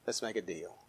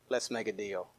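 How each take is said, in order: First: Quieter sly plea. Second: Low, hushed bargaining plea; mock pleading hush. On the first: Retold or imitated. Pharaoh repeating his bargain to God, hushed fade. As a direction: lower still, almost under the breath. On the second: Preacher voicing Pharaoh bargaining with God, hushed. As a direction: murmur it like a sly bargainer. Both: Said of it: "he began to say".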